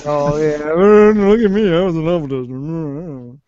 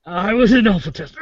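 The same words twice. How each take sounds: First: Louder, slower, hammed-up boast; mock bragging. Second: Laughing through the words; guffawing. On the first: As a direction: puff up like a show-off. Mocking a bragging friend. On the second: Real, not acted. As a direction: say it while breaking up laughing. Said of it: "Are you dying or guffawing?".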